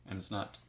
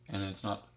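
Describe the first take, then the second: No difference in how they are said.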